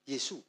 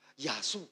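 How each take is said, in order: First: The first vowel sounds like 'e'. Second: The first vowel sounds like 'a'. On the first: This is the standard Mandarin form. "kalau Mandarinnya Yesus itu kan Yesu" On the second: This is the local dialect form. "Tapi kalau mereka bukan Yesu, Yasu"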